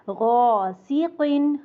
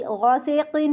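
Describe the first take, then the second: First: गौसीकिन with a heavy long गौ, slowly; correct recitation. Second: गौसेकिन with an e instead of i; wrong vowel. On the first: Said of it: "गौ मोटा होगा". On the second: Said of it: "नहीं बोलना". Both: Shown as a demonstration.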